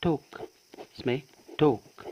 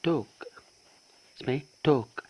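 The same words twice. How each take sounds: The two takes are said the same way.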